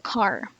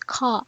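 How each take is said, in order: First: The final r sound is pronounced. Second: The final r sound is dropped. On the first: "but in rhotic dialects, it's, it's still car" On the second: "In B E, or non-rhotic or R-less dialects, it can be pronounced as ka"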